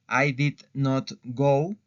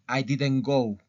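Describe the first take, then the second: First: The words did and not are said separately. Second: Did not is contracted and said faster. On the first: It sounds more formal. "forma larga" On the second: It sounds more everyday and casual. "cuando utilizo la forma corta, hablo más rápido"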